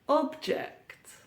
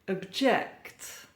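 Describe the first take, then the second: First: The stress is on the first syllable. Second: The stress is on the second syllable. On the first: It is used as a noun or adjective. "stress on the first syllable" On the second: It is used as a verb. "Stress or emphasis on the second syllable"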